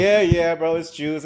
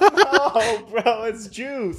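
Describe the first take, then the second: First: Humouring agreement. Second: Higher, drawn-out laughing plea; retold protest. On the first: Retold or imitated. Schoolmates humouring the boy with wet pants, mock agreement. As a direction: go along with him without believing it. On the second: Boy explaining his wet pants to schoolmates, mock pleading. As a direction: insist on it, pitched up and stretched.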